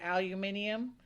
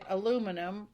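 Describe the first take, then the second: First: It is said with a British pronunciation. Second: It is said with an American pronunciation. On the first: "But in England, they would say aluminium" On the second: "over here, we would say aluminum"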